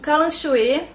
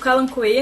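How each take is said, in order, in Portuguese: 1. A consoante do meio soa como 'sh'. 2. A consoante do meio soa como 'k'.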